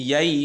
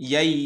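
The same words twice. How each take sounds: Both takes have the same delivery.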